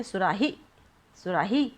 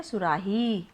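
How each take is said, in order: First: सुराही with a short "hi", rising at the end; short final vowel. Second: सुराही with a held, falling "heee"; long final vowel. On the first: Teacher demonstrates the wrong way, last syllable cut short. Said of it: "आप अगर ऐसे बोलेंगे". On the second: Teacher answers how we say it, last syllable stretched. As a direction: let the ही of सुराही run long. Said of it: "हम इसे कैसे बोलते हैं?". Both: Shown as a demonstration.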